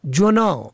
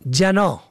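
First: جناح said "jonah"; o on first letter. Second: جناح said "janah"; فتحه on first letter. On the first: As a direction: say جناح with a short o after j. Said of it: "به فتح اول گناه". (جناح با ضمهٔ جیم: جُناح) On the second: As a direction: say جناح with a short a after j. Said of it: "به فتح اول". (جناح با فتحهٔ جیم: جَناح) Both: Shown as a demonstration.

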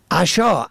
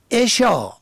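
First: عشا said as asha, a first; fatha on first letter. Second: عشا said as esha, e first; kasra on first letter. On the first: Teacher contrasting homographs, asha with fatha. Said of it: "به فتح اول". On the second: Teacher contrasting homographs, esha with kasra. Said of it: "به کسر اول". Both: Shown as a demonstration.

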